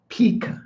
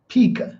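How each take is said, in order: First: The word is said as peak. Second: The same.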